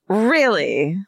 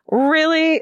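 First: It is said dripping with sarcasm. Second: It is said without sarcasm.

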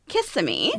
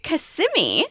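First: The stress is on the first syllable. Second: The stress is on the middle syllable. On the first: The speaker calls it wrong. "I was calling it" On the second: The speaker calls it right. "the emphasis is on the sim"

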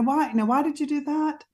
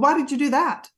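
First: The question sounds soft and curious. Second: The question sounds harsh and accusing. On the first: The parent is calmly curious about what happened. The speaker calls it right. "But they don't say, oh, now why did you do that?" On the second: The child hears a threat and feels in trouble. The speaker calls it wrong. "They might say, well, why did you do that? And the minute the parent does that, the child's nervous system activates"

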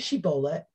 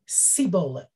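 First: The word begins with a 'sh' sound. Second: The word begins with an 's' sound. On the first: The speaker is not from Ephraim. The speaker calls it right. "say Shibboleth" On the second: The speaker is from Ephraim. The speaker calls it wrong. "They could not pronounce the shin"

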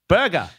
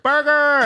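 First: The word is said in an Australian accent. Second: The word is said in an American accent. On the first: "the last word that my kids said as with an Australian accent" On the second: "Now they yell at Burger"

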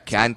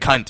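First: It is said softly in an Australian accent. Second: It is said harshly in an American accent. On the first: The word sounds casual and harmless. The speaker calls it right. "Says it" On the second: The word sounds shocking and harsh. The speaker calls it wrong.

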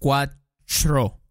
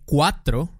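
First: The tr is said with a ch-like sound. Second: The tr is said as a clear t plus r. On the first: The speaker calls it wrong. "dicen cuatro. Ch, como ch" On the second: The speaker calls it right. "en vez de decir cuatro, tro"

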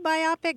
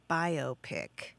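First: The word is split as bi plus opic. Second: The word is split as bio plus pic. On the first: "some people pronounce it the way you do" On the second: "the vast majority of folks say biopic. ... the bio from biographical and pic is in picture"

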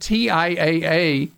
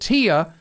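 First: The name is said as four letters. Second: The name is said with three letters. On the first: "calls it by the initials TIAA" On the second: "it's a time saver that I say it"

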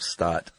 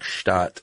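First: The word is said with an American pronunciation. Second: The word is said with a German pronunciation. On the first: The speaker calls it wrong. "That's how an American might say it" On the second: The speaker calls it right. "technically you should say like Stadt"

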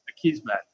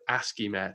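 First: The name starts like the sounds ackiss. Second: The name starts like the word ASCII. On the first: The speaker calls it right. "but it's Akismet" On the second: The speaker calls it wrong. "I used to always think it was like ASCIIMet for some reason"

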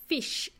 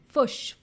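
First: The vowel is a plain short i sound. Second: The vowel is shifted toward a short u sound.

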